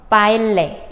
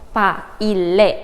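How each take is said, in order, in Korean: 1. 'a'와 'i'는 이어져서 두 음절입니다. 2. 'a'와 'i'는 갈라져서 세 음절입니다. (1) "하나의 음절로 포함이 되고" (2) "이렇게 삼음절로 되는 게 아닙니다"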